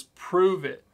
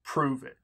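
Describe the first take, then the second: First: "Prove it" said higher and louder, falling hard on "Prove"; a louder, higher "Prove it" that lands like a dare; emphatic prove it. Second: Said in the usual way. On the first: Shown as a demonstration. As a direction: punch "Prove it" as a challenge. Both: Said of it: "He says".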